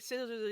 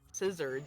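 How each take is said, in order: First: The word is mumbled and unclear. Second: The word is carefully and clearly enunciated. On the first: The speaker calls it wrong. "I totally mumbled that thing" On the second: The speaker calls it right. "I need to enunciate"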